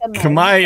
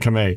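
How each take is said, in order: First: It is said with a Filipino pronunciation. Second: It is said with an American pronunciation. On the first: "in the Philippines" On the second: "in the United States, we would say"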